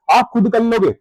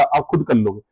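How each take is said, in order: First: Higher, insistent "आप खुद कर लोगे"; emphatic repeat. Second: Said in the usual way. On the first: Real, not acted. Teacher assuring students they can manage alone, emphatic. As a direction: drive home "आप खुद कर लोगे" with raised pitch.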